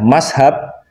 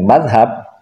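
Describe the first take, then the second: First: It is said in the absorbed Indonesian form with s. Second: It is said with the fluent Arabic-style pronunciation. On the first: The speaker is far from the santri tradition. "Kalau mengucapkannya mashab" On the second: The speaker is a santri. "Kalau fasih mengucapkannya dengan madhab"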